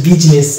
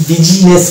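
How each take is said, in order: First: বিজনেস in two syllables, "bij-nes"; বিজনেস with a silent i; correct pronunciation. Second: বিজনেস stretched to three syllables, "bi-ji-nes"; wrong pronunciation. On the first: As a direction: drop the middle i from বিজনেস. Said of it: "এটা হচ্ছে বিজনেস". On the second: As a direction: sound the i in the middle of বিজনেস. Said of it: "বিজনেস বলি না". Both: Shown as a demonstration.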